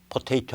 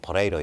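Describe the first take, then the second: First: The T sounds are pronounced clearly. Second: The T sounds are flapped like quick Rs. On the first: "포테이토 안 하고" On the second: "T자 발음이 액센트가 안 주어지면 없어져요"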